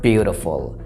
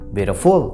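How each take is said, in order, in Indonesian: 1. Tekanannya ada di suku kata pertama. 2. Tekanannya ada di suku kata terakhir. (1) "yang ditekan di situ di beauty-nya suku kata pertama" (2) "Nggak bisa di akhir suku kata, nggak bisa beautiful"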